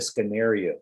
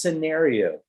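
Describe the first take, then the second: First: It is said the Indonesian way. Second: It is said the English way. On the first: The speaker calls it wrong. "Indonesians say the scenario" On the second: The speaker calls it right. "It's scenario"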